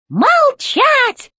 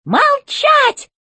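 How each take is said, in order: First: High, shouted robot command; shouted robot order. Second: High, sharp robot command; robot chef order. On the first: Robot chef repeating his order to Alice, now shouting. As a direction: bellow it the second time. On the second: Robot chef silencing Alice, high command. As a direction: cut them off from high above. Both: A narrator's reading. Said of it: "и он повторил".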